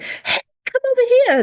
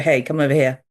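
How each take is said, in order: First: It is said in a lively, attention-getting tone. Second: It is said in a flat, plain tone.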